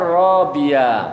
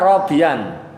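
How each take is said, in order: First: The word ends in a long vowel. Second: The word ends in an n sound. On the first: The reader stops on this word. "Kalau dibaca berhenti uh, uh, enggak tanwin tapi panjang ya" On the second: This is the base form before a stop. "asalnya robian ya bu ya, robian ada alifnya"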